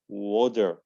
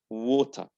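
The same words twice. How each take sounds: First: It is said in an American accent. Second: It is said in a British accent. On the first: "then American"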